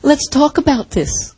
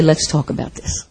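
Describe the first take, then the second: First: Gentle invitation. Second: "Let's talk about this" almost whispered, low and tender; soft gentle invitation. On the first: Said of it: "I wanna put my arms around them and I wanna say". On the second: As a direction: say "Let's talk about this" softly, as to a hurting friend. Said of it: "I will scoop them up and say". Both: Retold or imitated.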